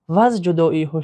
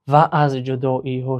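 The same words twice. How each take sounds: First: The two words are contracted into one syllable. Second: The two words are said separately, uncontracted. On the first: The speaker calls it right. "در شکل اختصاره" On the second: The speaker calls it wrong. "اگر ما تلفظ کنیم در شکل"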